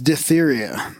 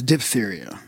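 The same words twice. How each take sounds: First: The first syllable sounds like 'dip'. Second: The first syllable sounds like 'dif'. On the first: The speaker calls it wrong. "you said several times diphtheria" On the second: The speaker calls it right. "the proper pronunciation is diphtheria"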